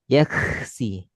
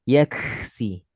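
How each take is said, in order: No difference in how they are said.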